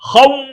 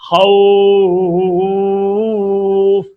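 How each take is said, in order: First: खौ cut short with tense lips, high and loud; tight clipped vowel. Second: खौफ with soft lips and tongue, vowel held long. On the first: Teacher showing the wrong tight vao, abrupt cut-off. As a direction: snap खौ shut with tight lips. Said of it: "अगर आप tight करेंगे तो बंद हो जाए". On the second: Teacher showing the correct soft vao leen, long held. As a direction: ease खौफ out gently and long. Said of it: "जबान को नरम रखकर हम निकालेंगे". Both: Shown as a demonstration.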